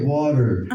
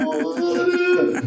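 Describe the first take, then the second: First: Water said Oklahoma style, "wah-der" with a flapped t and a strong r; plain Okie "water", flap and hard r. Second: Water said high, as "waw-tuh" with a long open aw and no r; mock New York "water", pitched way up; Brooklyn Puerto Rican water. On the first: Shown as a demonstration. Comic showing how Oklahomans say the word, relaxed drawl. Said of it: "In Oklahoma, we say water". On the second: Brooklyn coworker pleading for water, high and drawn out. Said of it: "we say water".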